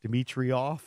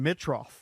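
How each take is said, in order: First: The name has four syllables, with an added 'ee' sound. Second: The name has three syllables, with no added sound. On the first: The speaker calls it wrong. "I was like throwing the I in there" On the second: The speaker calls it right. "He doesn't have that second I"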